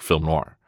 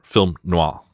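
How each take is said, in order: First: It is said the plain English way. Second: It is said the French way.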